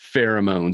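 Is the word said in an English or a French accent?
English. The word is said in a plain English accent.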